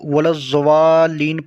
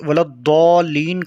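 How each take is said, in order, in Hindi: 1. 'wal' के बाद का व्यंजन z की ध्वनि है। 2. 'wal' के बाद का व्यंजन एक भारी d जैसी ध्वनि है। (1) "जो कि गलत है" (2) "ज़ाद इस्तेमाल हुआ है"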